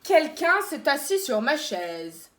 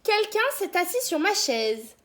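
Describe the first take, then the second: First: It is said in a big, gruff voice. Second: It is said in a medium-pitched voice.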